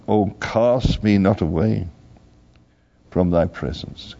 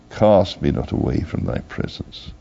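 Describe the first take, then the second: First: Said in the usual way. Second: "Cast me not away from thy presence" repeated lower, a hushed echo of the plea. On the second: Acted. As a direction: let the plea sink lower the second time.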